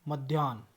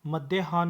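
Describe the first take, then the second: First: मध्याह्न as joined 'madhyaan', falling; correct pronunciation. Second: मध्याह्न split as 'madde-haan'; wrong pronunciation. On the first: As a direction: blend ध्य smoothly in मध्याह्न. (मध्याह्न का सही उच्चारण) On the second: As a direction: pull ह apart as a syllable in मध्याह्न. (मध्याह्न का गलत, टूटा उच्चारण) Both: Shown as a demonstration. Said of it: "मध्याह्न नहीं".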